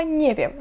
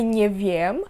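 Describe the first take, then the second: First: "nie wiem" high on nie, then falling; "NIE wiem", quick and joined as one word; stress on NIE. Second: "nie wiem" with the weight on wiem; "nie WIEM", rising onto the last syllable; wrong stress on WIEM. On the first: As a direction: hit nie in "nie wiem", wiem unstressed. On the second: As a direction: stretch and stress the second word of "nie wiem". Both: Shown as a demonstration. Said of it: "Наголос на «nie»".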